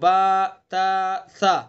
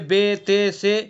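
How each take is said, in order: First: Each letter ends in an 'a' vowel. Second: Each letter ends in an 'e' vowel. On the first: The speaker calls it right. "सीधे सीधे पढ़ जाएंगे" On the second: The speaker calls it wrong. "ये गलत है"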